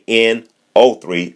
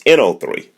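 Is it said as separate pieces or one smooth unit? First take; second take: separate pieces; one unit. First: Each part is said separately with breaks. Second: All parts run together as one unit. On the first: The parts are treated as separate items. The speaker calls it wrong. "you don't say N O three" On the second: The group is treated as one thing. The speaker calls it right. "it's N O three. That's how we actually say it"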